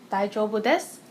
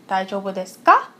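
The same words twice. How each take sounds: First: 大丈夫です as a level statement, no question rise; statement tune. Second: 大丈夫ですか with a sharp rise on か; question tune. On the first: Teacher showing "I'm okay", 大丈夫です as a plain statement. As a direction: say 大丈夫です evenly, without lifting the end. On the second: Teacher showing "are you okay", 大丈夫ですか rising on か. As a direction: lift か right up at the end of 大丈夫ですか. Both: Shown as a demonstration. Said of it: "ka turns it into a question".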